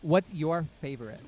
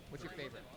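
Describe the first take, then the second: First: Said in the usual way. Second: Much softer repeat; quiet. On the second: Shown as a demonstration. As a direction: ask it again under the breath. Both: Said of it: "repeated question".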